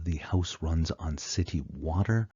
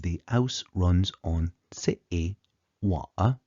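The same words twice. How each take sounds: First: Said in the usual way. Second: Cockney, H dropped and T's swallowed; slow Cockney demo with dropped consonants; Cockney accent. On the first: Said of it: "we no longer have". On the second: Shown as a demonstration. Lecturer showing the dialect change in the hotspots, slow Cockney accent. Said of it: "Instead, we have".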